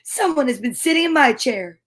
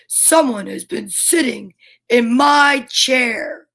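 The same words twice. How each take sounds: First: It is said in a middle-sized voice. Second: It is said in a great big voice. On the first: The middle-sized character is speaking. "in her middle-sized voice" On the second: The biggest character is speaking. "in this great big voice"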